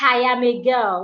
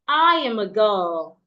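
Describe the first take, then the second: First: The first word starts with an added H sound. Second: The first word starts directly with a vowel. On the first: The speaker calls it wrong. "they add an invisible H" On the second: The speaker calls it right. "There is no H in that word. The word is I"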